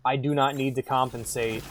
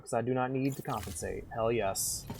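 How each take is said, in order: First: Said in the usual way. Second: Softer put-on Southern country voice; mock Southern accent, quietly insistent. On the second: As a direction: boast like a Southern good ol' boy. Southern character's boast, repeated plainly later.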